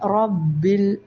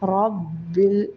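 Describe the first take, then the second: Both takes have the same delivery.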